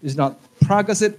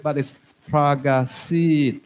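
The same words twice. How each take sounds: First: Pragasit stressed on the first syllable, not the last; the wrong way, Pragasit with early stress. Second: Pragasit, slow, with the weight on the final syllable sit; stress on last syllable. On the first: Teacher showing the wrong Thai stress on Pragasit. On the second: Teacher modelling Thai stress on Pragasit, slowly. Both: Shown as a demonstration. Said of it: "you put the stress on the last syllable".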